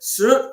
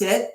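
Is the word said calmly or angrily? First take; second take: angrily; calmly. First: It is said angrily and emphatically. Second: It is said fairly calmly.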